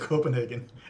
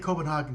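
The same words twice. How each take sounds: First: The middle part does not sound like Haagen-Dazs. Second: The middle part sounds like Haagen-Dazs. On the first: This is how locals say it. The speaker calls it right. "we say Copenhagen" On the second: The speaker thought this was the correct way. The speaker calls it wrong. "like Haagen-Dazs?"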